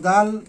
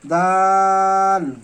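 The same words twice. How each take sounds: First: The vowel is said short, not drawn out. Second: The vowel is drawn out long, three beats. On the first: The speaker calls it wrong. "এইভাবে না" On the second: The speaker calls it right. "তিন আলিফ টেনে"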